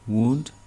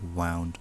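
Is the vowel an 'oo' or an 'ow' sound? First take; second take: oo; ow. First: The vowel is an 'oo' sound. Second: The vowel is an 'ow' sound. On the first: It means an injury. "वुन्ड भनेको अब घाउ भन्छौँ" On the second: It means twisted, in the past. "त्यसको past tense हो, त्यस त्यसलाई चाहिँ वाउन्ड भन्छौँ"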